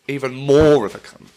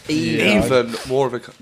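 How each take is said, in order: First: The word "more" carries the main stress. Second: The word "even" carries the main stress. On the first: "I would have underlined more" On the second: "And then underlined even"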